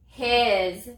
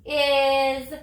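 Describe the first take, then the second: First: Said in the usual way. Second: "Is" stretched after a separate h, ending in buzzed z; sounded out with z. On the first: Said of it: "What's the word?". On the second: Shown as a demonstration. Teacher retries because s says z here, "Is" sounded out slowly. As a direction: draw out "Is" with a z sound at the end. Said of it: "it says z in this word".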